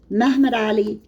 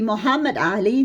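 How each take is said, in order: First: The name is said in its Turkish form. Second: The name is said in its Arabic form. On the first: The speaker calls it wrong. "That's the Turkish pronunciation" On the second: The speaker calls it right. "So it should be Muhammad Ali"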